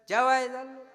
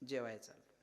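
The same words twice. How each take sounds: First: The reply is said in a loud, raised voice. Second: The reply is said in a calm, normal voice. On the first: He does not want to say where he is going. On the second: He is really going to eat.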